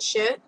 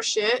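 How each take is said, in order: First: Said in the usual way. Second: More shit? jumps high with a rising tune; high surprised question. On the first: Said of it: "More shit?". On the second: Real, not acted. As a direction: squeal More shit? in disbelief.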